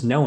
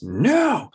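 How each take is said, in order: First: Said in the usual way. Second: Imitated tantrum no, pitched high; toddler freaking out. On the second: Toddler refuses anything at all, mock tantrum voice. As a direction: draw out a high, defiant child's NO. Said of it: "He'll, like, freak out".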